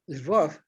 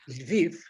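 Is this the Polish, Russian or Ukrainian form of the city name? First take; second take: Russian; Ukrainian. First: The city name is said in the Russian form. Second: The city name is said in the Ukrainian form. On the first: This is the name used by Russians. "that would be the Russians" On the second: This is the name used by Ukrainians. "that's the Ukrainians"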